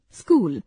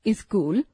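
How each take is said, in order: First: स्कूल with a clean sk cluster, no added vowel; correct pronunciation. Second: स्कूल said as "इस्कूल" with an added i before the s; wrong pronunciation. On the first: Teacher models the correct स्कूल with a tight sk start. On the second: Teacher demonstrates the wrong form, स्कूल said as "इस्कूल". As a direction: put a short i sound before स्कूल. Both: Shown as a demonstration. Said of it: "अशुद्ध उच्चारण, शुद्ध उच्चारण".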